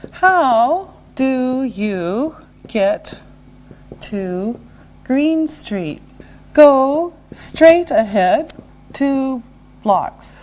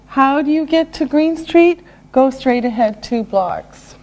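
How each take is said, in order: First: Very slow, separated words; slow and deliberate. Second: Said in the usual way. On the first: Shown as a demonstration. Teacher modelling directions for learners, slow and separated. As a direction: give learners one word at a time.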